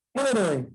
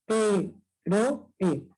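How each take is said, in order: First: Said in the usual way. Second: "héroe" broken up as hé, ro, e; split into syllables. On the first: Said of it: "Las vocales abiertas". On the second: Shown as a demonstration. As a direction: pause after each syllable of "héroe". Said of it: "siempre en sílabas diferentes". ("héroe" silabeado: hé, ro, e)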